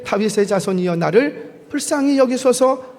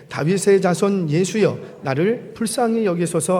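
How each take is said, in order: First: Restrained imitation of crying out for mercy; louder plea. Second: Said in the usual way. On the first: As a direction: read as a mild cry, rising higher. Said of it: "더욱 크게 소리질러 이르되". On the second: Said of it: "소리질러 이르되".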